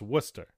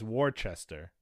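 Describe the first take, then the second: First: It is said the local New England way. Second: It is said the way non-New Englanders say it.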